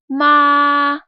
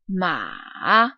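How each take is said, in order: First: The pitch stays high and level throughout. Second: The pitch falls low, then rises again. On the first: "a high, even, and constant tone" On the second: "will go down but then go back up"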